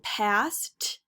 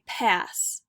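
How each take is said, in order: First: The final t sound is pronounced. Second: The final t sound is dropped. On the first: This is the standard American English form. "in standard American English, we would say past" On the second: "in A A V E, they would say pass"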